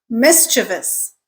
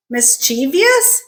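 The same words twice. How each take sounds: First: Mischievous slowly as MIS-chuh-vus; correct pronunciation. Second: Mischievous slowly as mis-CHEE-vee-us; common mispronunciation. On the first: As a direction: stress the first syllable of mischievous, three syllables. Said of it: "The correct way to pronounce". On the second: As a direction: give mischievous four syllables, stress on CHEE. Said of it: "becomes mischievous". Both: Shown as a demonstration.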